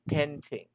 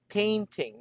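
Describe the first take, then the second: First: The first syllable does not sound like pain. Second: The first syllable sounds like the word pain. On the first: The speaker calls it wrong. "not painting" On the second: The speaker calls it right. "can you say painting"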